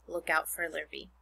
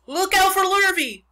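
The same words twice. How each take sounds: First: Said in the usual way. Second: Loud, high warning shout; crying out. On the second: A narrator's reading. Cows warn the pig that Lurvy is coming, crying out. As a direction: holler it like a barnyard alarm. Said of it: "cried the cows".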